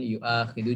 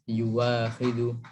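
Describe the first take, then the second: First: A glottal stop is in the middle. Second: A w sound is in the middle. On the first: "merubah hamzah menjadi wawu"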